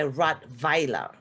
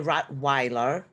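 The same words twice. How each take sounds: First: The second syllable begins with a V sound. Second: The second syllable begins with a W sound. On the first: This is how Germans say it. "we say Rottweiler. The vi it's a V" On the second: This is how English speakers say it. "so you say Rottweiler"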